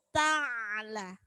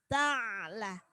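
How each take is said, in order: Both takes have the same delivery.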